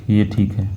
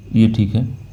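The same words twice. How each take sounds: The two takes are said the same way.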